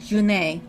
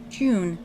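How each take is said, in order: First: The name is said with two syllables. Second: The name is said as one syllable. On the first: "If you're actually going to say the correct pronunciation" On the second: "Although I still prefer to think of it as June"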